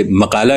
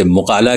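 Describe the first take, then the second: First: مقالہ said as makala with k and zabar; مقالہ with a plain k sound; variant pronunciation. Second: مقالہ said as muqala with a deep q; مقالہ with pesh and the Arabic qaf; variant pronunciation. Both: Shown as a demonstration. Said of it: "ایسے ہی لفظ مقالہ ہے".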